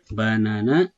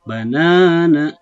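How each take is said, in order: First: The middle vowel is short and not stretched. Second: The middle vowel is drawn out long. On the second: "jadi ... dengan cara mengayun"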